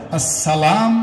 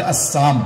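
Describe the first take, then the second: First: "আসসালাম" said as "as-sa-laam"; laam pronounced. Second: "আসসাম" said as "as-saam", no "la"; laam left out. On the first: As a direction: keep the long "laa" in "আসসালাম". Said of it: "লাম একটা অক্ষর আছে". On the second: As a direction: drop the laam, leaving "আসসাম". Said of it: "লাম অক্ষর বাদ দিলে". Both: Shown as a demonstration.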